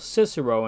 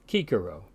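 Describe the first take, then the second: First: The c sounds are soft, as in English. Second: Both c sounds are said as hard k. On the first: "in modern English" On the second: "is called Cicero in classical Latin"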